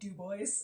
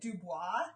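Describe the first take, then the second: First: The name is said with an English pronunciation. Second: The name is said with a French pronunciation. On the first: This is how the locals say it. "people call it Dubois" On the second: This is the official name the post office gave. "the locals rejected the French pronunci- pronunciation"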